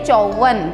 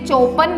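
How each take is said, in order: First: The middle consonant is a 'v' sound. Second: The middle consonant is a 'p' sound. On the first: The speaker calls it right. "इसे बोलना चाहिए चौवन" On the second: The speaker calls it wrong. "हमें इसे चौपन नहीं बोलना चाहिए"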